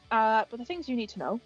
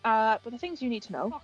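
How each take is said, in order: Both takes have the same delivery.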